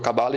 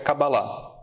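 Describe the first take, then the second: First: It is pronounced the Brazilian Portuguese way. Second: It is pronounced the Hebrew way. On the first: This is the form the word took locally. "no Brasil virou Cabala" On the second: This is the original form of the word. "no hebraico mesmo, a pronúncia correta seria Kabbalah"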